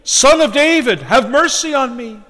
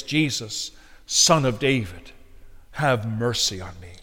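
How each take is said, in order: First: Loud, much higher plea; crying out more. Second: Soft, low, measured appeal; hushed plea. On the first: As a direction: cry out insistently over the crowd. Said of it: "he cried the more, a great deal". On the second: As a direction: pray it quietly and low. Solemn appeal to cry to Christ. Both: Retold or imitated.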